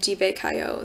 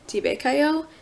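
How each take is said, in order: First: It is said as a statement. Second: It is said as a question.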